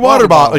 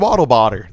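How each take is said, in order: First: The phrase is said with its normal consonants. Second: The middle consonants of the two words are swapped. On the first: The speaker calls it right. "You can keep your water bottle" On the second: The speaker calls it wrong. "I want to say waddle botter every time"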